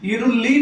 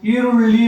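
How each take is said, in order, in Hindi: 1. l की ध्वनि सामान्य हिंदी जैसी l है। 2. l की ध्वनि मूर्धन्य है, जीभ पीछे की ओर मुड़ी होती है। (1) "ईरुल्ली नहीं बोलेंगे इसको" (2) "प्याज को ईरुल्ली बोलते हैं"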